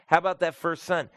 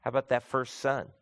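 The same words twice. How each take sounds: First: "How" punched higher and louder on the repeat; emphatic repeat. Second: Said in the usual way. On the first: Shown as a demonstration. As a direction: hammer the question home the second time. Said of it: "asked again, louder, higher". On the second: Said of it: "asked first plainly".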